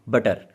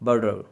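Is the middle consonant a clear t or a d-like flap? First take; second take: clear t; flap. First: The middle consonant is a clear t sound. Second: The middle consonant is a quick d-like flap.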